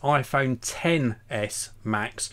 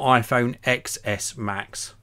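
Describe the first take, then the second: First: The X is said as the word ten. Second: The X is said as the letter ex. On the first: The speaker calls it right. "It is iPhone XS Max. X stands for 10" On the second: The speaker calls it wrong. "Not iPhone XS Max"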